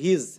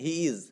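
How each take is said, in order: First: It is said as one shortened word. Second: It is said as two separate full words. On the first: "আরেকটা নতুন আছে যে হিজ" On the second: "এই হিজটাকে আপনি বলতে পারেন এখানে হি ইজ"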